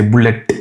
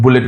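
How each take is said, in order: First: "bullet" with a hard, stressed final T. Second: Said in the usual way. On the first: Shown as a demonstration. Teacher showing how Indians say it, hard T in "bullet". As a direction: hit the T hard at the end of "bullet". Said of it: "Instead of bullet, we say bullet". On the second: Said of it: "more likely to stress those words out".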